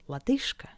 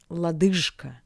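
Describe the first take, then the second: First: The consonant before K is a voiceless sh. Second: The consonant before K is a voiced zh. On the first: The speaker calls it right. "but лодыжка" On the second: The speaker calls it wrong. "Not лодыжка"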